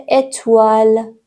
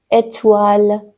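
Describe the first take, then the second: No difference in how they are said.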